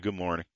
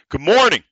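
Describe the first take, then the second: First: The greeting is said flatly, with little energy. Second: The greeting is said loudly, with lots of energy. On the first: The speaker calls it wrong. "Don't just say good morning" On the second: The speaker calls it right. "And say it with vigor"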